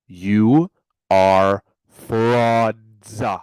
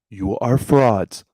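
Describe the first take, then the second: First: It is said very slowly. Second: It is said at normal speed.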